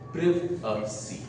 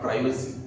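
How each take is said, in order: First: It is said with a British pronunciation. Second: It is said with an American pronunciation. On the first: The speaker calls it right. "That is the British pronunciation which we follow in India" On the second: The speaker calls it wrong. "That's the American pronunciation"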